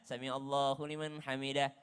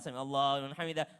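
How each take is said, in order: First: It is said slowly and drawn out. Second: It is said quickly and rushed. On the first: There is time left for an extra prayer. "Kalau di Mekah mungkin bisa karena memberikan jeda" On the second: There is no time left for an extra prayer. "Tapi kalau di Indonesia cepat"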